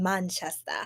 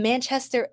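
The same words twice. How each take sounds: First: Playful British pronunciation of Manchester; put-on English accent on Manchester. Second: Said in the usual way. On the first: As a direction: say Manchester in a mock British accent, dropping the final r. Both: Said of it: "I love y'all accents".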